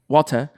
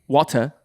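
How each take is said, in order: First: It is said in an upper-class British accent. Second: The same.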